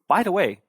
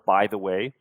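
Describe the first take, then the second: First: It is said in a lively, spontaneous tone. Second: It is said in a flat, plain tone. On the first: The speaker calls it right. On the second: The speaker calls it wrong.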